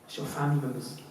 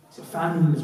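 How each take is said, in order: First: Soft and heavy. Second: Said in the usual way. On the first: Shown as a demonstration.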